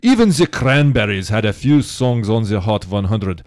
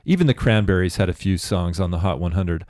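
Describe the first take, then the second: First: It is read in a put-on Russian accent. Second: It is read in the speaker's ordinary accent.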